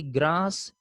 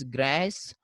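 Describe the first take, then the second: First: "grass" said GRAHS, long ah; British pronunciation. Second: "grass" said GRASS, vowel as in cat; American pronunciation. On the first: Teacher contrasting varieties, British "grass" with ah. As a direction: open "grass" out to ah. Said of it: "here a sound is there". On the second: Teacher contrasting varieties, American "grass" with ae. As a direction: stretch the ae in "grass". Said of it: "the a sound is pr". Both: Shown as a demonstration.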